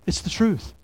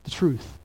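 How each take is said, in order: First: Truth stressed, pitch up, falling close. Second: The truth said softer with a falling close; softer answer. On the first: Pastor insisting to the church, stressing truth. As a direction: lean on truth as a firm restatement. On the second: Pastor answering his own question, softly. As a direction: drop the voice on truth. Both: Shown as a demonstration. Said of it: "you know what the Bible is".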